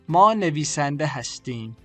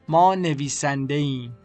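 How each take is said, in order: First: The verb is said in full as 'hastim'. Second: The verb is shortened to the ending 'im'.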